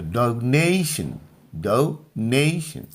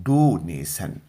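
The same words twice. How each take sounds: First: Slow, deliberate donation, leaning on the ने; donation stretched out with a strong middle; stress on middle syllable. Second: donation as doo-NAY-san, long first vowel, s for sh; lower-pitched donation with a Hindi-style "san" ending; common mispronunciation. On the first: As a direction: say donation as doh-NAY-shun, final syllable light. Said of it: "ने पर जोर लगाना है और सन पर जोर नहीं". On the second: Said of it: "सामान्य अंग्रेजी में हम लोग इसको पढ़ते हैं". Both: Shown as a demonstration.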